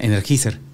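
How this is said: It is read letter by letter, Spanish-style.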